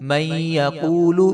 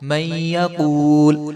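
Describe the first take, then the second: First: The final vowel is pronounced at the end. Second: The final vowel is dropped at the end. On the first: The reading continues without stopping. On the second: The reader stops on this word.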